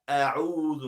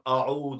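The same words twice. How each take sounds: First: The first letter is light, with spread lips. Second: The first letter is heavy, with rounded lips. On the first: The speaker calls it right. "Make sure your lips spread" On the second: The speaker calls it wrong. "not a'udhu with a"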